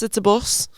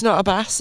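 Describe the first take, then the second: First: Said in the usual way. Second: "bus" with the nephew's Welsh vowel, close to "bass"; contrasted vowel in bus. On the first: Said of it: "I'd be like". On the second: Retold or imitated. Aunt correcting her nephew, "bus" mimicked with his Welsh vowel. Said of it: "I'd be like, "It's not a bus".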